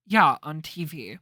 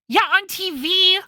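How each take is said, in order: First: Said in the usual way. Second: Higher, louder; exasperated Maya. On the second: Acted. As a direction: stress it impatiently.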